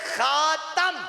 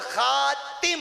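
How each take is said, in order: First: The vowel after the t is 'a'. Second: The vowel after the t is 'i'. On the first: "ता की जबर के साथ" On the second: "ता की जेर के साथ"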